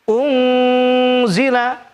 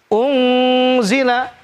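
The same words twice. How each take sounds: Both takes have the same delivery.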